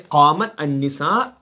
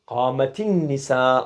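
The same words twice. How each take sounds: First: The first word ends in t with no added vowel. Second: An 'i' vowel links the t to the next word.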